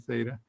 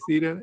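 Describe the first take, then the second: First: It is pronounced the American way. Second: It is pronounced the British way. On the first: "If you're an American, you'll probably say theta" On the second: "if you're British, you'll probably say theta"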